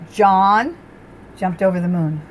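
The stress is on the word John.

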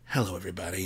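The greeting is soft and sultry. The speaker calls it wrong. "No, that's too bedroomy"

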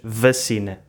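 It is said Lisbon style, with a V sound.

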